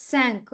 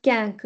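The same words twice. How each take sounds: First: "cinq" with an initial s sound; soft c. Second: "cank" with k in place of s; hard c error. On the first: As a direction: begin French "cinq" on a clear s. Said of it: "it's cinq". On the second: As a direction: wrongly start French cinq with k: "cank". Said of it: "It's not cank". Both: Shown as a demonstration.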